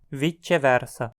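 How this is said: Italian-style, with the c sounding like ch. "na região afetada pelo italiano, pronunciada"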